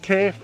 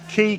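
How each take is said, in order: First: The vowel is ay, like the letter K. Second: The vowel is long ee, like 'key'.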